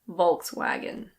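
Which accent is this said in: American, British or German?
American. It is said with an American pronunciation. "In American English, people usually say Volkswagen"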